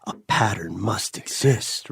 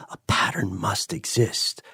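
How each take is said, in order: First: Whispered, fading inner voice; whispering inner voice. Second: Soft murmured inner voice. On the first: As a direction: whisper it like a nagging thought. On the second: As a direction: murmur it like a thought in your head. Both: Acted. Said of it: "little voice in your head is always going".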